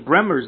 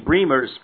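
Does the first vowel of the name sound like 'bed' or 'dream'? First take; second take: bed; dream. First: The first vowel is short, as in bed. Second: The first vowel is long, as in dream. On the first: The speaker calls it wrong. "your name is not pronounced [name]" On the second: The speaker calls it right. "So it rhymes with Dreamers"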